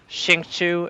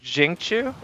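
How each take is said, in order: First: The name begins with an sh sound. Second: The name begins with a j sound. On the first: The speaker calls it wrong. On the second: The speaker calls it right. "more like Jing instead of Xing"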